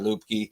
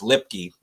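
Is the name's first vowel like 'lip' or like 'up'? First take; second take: like up; like lip. First: The first vowel sounds like 'up'. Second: The first vowel sounds like 'lip'. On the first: The speaker calls it wrong. "that's pronounced wrong" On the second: The speaker calls it right. "It's Lipke"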